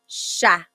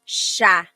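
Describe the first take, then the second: Both takes have the same delivery.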